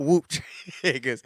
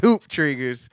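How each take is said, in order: First: The first word starts with a W sound. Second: The first word starts with an H sound. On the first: The speaker calls it wrong. "not whoop triggers" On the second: The speaker calls it right. "It's hoop triggers"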